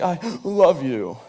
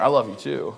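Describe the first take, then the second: First: Drawn-out mock weepy voice, slow; imitated tearful sighing. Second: Said in the usual way. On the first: Comic impression of girlfriend's tearful airport goodbye, mock sobbing. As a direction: sigh it out like a crying girlfriend. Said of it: "in between her sighs". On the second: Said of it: "So I threw it back at her".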